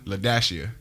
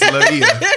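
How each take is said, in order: First: The dash is spoken aloud in the name. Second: The dash is left out of the name. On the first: The hyphen is read as part of the name. "You supposed to pronounce the dash" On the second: The hyphen is ignored when reading the name. "Cause if not, what is it? It's Laia"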